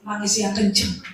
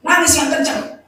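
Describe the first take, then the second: First: Said in the usual way. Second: Higher, insistent repeat; insistent urging. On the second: Retold or imitated. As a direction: urge them on, pitched up. (desakan dengan nada lebih tinggi)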